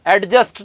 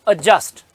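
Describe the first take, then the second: First: A d sound is heard before the j. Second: No d sound is heard before the j. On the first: The speaker calls it wrong. "एडजस्ट नहीं" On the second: The speaker calls it right. "देखो डी silent है"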